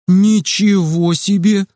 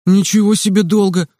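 First: Slow, drawn-out amazement; amazed whistle. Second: Mild indignant protest. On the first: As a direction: stretch ничего in wonder. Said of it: "присвистнул он". (протяжно и изумлённо, «ничего» растянуто) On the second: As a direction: push back, offended, stress on ничего. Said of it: "возмутился Кирилл". (возмущённо, с ударением на «ничего») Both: A narrator's reading.

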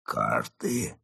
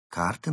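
First: Low, soft rising question; stunned echo. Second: Casual example. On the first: Mole freezing at fox's word, stunned. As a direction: echo it softly, frozen in shock. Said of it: "Крот оцепенел". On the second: Fox naming an example to Mole, casual. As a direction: offer it lightly as an example. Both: Acted.

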